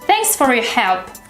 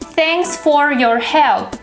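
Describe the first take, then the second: First: The word 'for' is reduced to a weak form. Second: The word 'for' is said in full. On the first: "For becomes thir" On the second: "Instead of saying"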